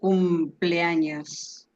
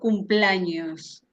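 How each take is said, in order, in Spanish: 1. Las vocales del medio se mantienen como sílabas separadas. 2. Las vocales del medio se unen en una sola sílaba. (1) "digo cumpleaños" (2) "yo no digo cumpleaños"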